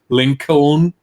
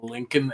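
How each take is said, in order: First: The middle L is clearly sounded. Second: The middle L is silent. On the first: The speaker calls it wrong. "and not Lincoln ... Germans do try to pronounce all the letters" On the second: The speaker calls it right. "it's Abraham Lincoln"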